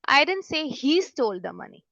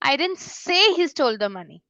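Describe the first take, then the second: First: The word he is stressed with raised pitch. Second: The word say is stressed with raised pitch. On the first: Someone else might have stolen the money. "ही पे अगर हम stress देके बोलते हैं" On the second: The speaker thought or wrote it but never said it. "मेरी जो से है उसमें बहुत ज्यादा स्ट्रेस देती हूँ"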